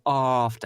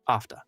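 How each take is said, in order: First: The first vowel is drawn out and exaggerated. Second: The first vowel is short and sharp. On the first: The speaker calls it wrong. "But people say after" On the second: The speaker calls it right. "it's just after, after. You know, nice short, sharp"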